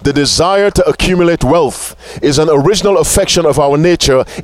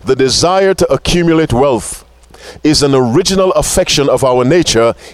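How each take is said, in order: First: The sentence is spoken at a normal pace. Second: The sentence is spoken slowly and deliberately.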